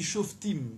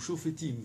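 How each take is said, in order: First: No vowel is heard between f and t. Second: A short vowel is heard between f and t.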